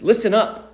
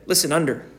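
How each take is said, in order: First: Brisk attention-getting call; crisp listen up call; sharp call. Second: Said in the usual way. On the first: Shown as a demonstration. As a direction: snap it out like calling kids to attention. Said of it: "we use the phrase". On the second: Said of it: "This is instead".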